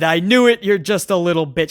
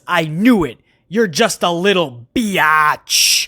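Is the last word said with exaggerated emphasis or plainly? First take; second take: plainly; emphasized. First: The last word is said plainly without extra emphasis. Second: The last word is stretched with heavy emphasis.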